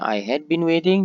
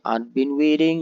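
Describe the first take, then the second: First: The word had is said in full. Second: Had is shortened to a d sound. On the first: "yang tadinya" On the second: "had akan disingkat ya, menjadi apostrof d ya. Jadi dibaca ad"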